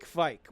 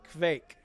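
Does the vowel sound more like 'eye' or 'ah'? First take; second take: eye; ah. First: The vowel sounds like 'eye'. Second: The vowel sounds closer to 'ah'.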